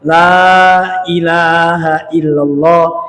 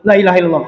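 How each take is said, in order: First: The phrase is said slowly and drawn out. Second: The phrase is said quickly and clipped short. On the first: The speaker calls it right. "yang satu agak panjang" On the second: The speaker calls it wrong. "Enggak gitu"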